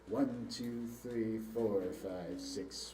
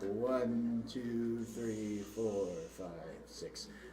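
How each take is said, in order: First: The count is at a moderate, faster pace. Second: The count is very slow and drawn out.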